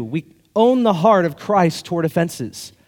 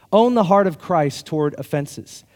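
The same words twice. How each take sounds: First: "own" slow and deliberate; slow point. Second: Said in the usual way. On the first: Shown as a demonstration. Pastor announcing point two slowly, stressing "own". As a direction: stretch "own" as you announce it.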